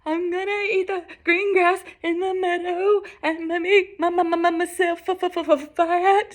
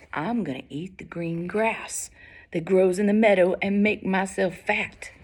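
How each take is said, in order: First: High-pitched, stammering goat voice; frightened goat. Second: Unhurried, steady goat voice; calm big goat. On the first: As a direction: stutter through it in a high, scared voice. Terrified goat answers the troll. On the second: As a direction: answer the troll without a tremor. Unafraid big goat answers troll. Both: Acted.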